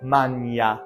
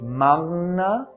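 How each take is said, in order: First: The gn is said as a ny sound. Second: The gn is said nasally as ng-n. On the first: This is the Italian pronunciation. "like lasagna, creates a y sound" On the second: This is the Latin pronunciation. "nasalized up in the nose"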